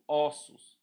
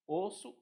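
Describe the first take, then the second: First: "ossos" loud and falling, first vowel opened up. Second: Closed o in "Osso"; "Osso" higher and rising, first vowel closed. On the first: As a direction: open o in "ossos". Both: Shown as a demonstration. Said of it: "essa mudança de timbre".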